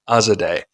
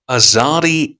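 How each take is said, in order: First: The last syllable rhymes with day. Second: The last syllable does not rhyme with day. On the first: The speaker calls it right. "So Azadeh" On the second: The speaker calls it wrong. "Forgive me for the mispronunciation"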